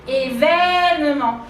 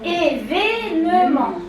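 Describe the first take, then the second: First: The second vowel is relaxed and more open. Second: The second vowel is tense, with spread lips. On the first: This form is easier to pronounce. "on s'est détendu" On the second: This is the traditional form.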